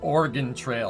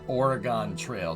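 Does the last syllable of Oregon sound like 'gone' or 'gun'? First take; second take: gun; gone. First: Oregon ends with a short 'gun' sound. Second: Oregon ends with a long 'gone' sound. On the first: The speaker calls it right. "G U N" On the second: The speaker calls it wrong. "not Oregon Trail"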